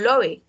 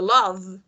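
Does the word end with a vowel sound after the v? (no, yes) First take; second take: yes; no. First: A vowel sound follows the final v. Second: The word ends on the v sound. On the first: The speaker calls it wrong. "la E no se pronuncia porque yo no digo love" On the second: The speaker calls it right. "yo digo love"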